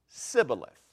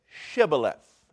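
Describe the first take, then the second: First: The word begins with an 's' sound. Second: The word begins with a 'sh' sound. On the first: The speaker is an Ephraimite. The speaker calls it wrong. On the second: The speaker is not an Ephraimite. The speaker calls it right.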